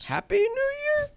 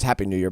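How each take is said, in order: First: It is said as a question, rising. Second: It is said as a statement, falling.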